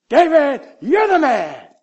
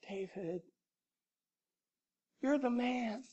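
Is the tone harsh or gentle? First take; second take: harsh; gentle. First: It is said in a harsh, accusing tone. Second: It is said in a gentle, caring tone.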